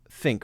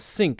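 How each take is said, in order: First: The first sound is a th sound. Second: The first sound is an s sound. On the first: "instead of a think" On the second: "more of a S sound instead of a T H sound"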